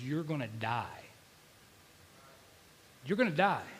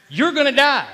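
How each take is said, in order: First: Subdued, matter-of-fact death sentence; low-key voice of the enemy; intrusive dark thought. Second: Loud, high proclamation of doom; raised-voice death sentence from the pulpit; insistent dark thought. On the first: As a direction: say it softly, like a thought in the head. Enemy's thoughts in his head. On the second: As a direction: hurl it out like an accusing enemy. Enemy's thought, escalating. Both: Retold or imitated.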